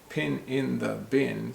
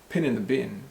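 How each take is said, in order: First: Each word is said separately and clearly. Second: The words run together in one compressed chunk.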